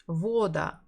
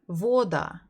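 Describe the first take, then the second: First: The stress is on the first syllable. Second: The same.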